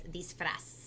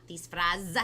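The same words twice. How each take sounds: First: Disfraz ending in a hissing s sound; correct pronunciation. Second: Disfraz ending in a buzzing z sound; wrong pronunciation. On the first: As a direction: say disfraz with a final s like Spanish. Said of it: "It's disfraz". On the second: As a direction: say disfraz with a final z. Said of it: "so it's not disfraz". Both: Shown as a demonstration.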